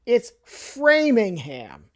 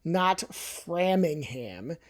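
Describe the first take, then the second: First: Framingham as FRAY-ming-ham, slow; drawn-out local Framingham; correct Framingham. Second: Framingham said slow and soft as FRAM-ing-ham; quiet mocking Framingham; wrong Framingham. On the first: Correcting viewers, slow local Framingham. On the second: Softly mimicking the wrong Framingham. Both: Shown as a demonstration.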